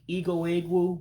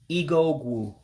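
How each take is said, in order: First: The second word keeps its starting vowel. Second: The second word drops its starting vowel. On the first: The speaker calls it wrong. "You can say it that way" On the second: The speaker calls it right. "you do want to drop the E for it to be more natural"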